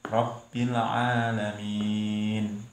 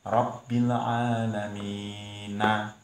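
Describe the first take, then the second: First: The phrase ends on the consonant n. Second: The phrase ends with a final vowel sound. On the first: "cara membaca yang benar"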